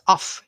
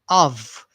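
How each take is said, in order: First: The word ends with an F sound. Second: The word ends with a V sound. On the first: The speaker calls it wrong. "It's not off" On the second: The speaker calls it right. "This F here says V, it has a V sound"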